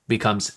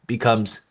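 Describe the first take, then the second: Both takes have the same delivery.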